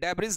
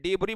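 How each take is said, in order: First: The word ends with a z-like consonant sound. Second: The word ends on a vowel sound. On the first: The speaker calls it wrong. "डेब्रिज नहीं बोला जाता है" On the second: The speaker calls it right. "डिबरी बोला जाता है"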